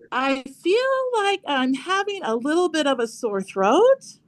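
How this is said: The voice rises at the end.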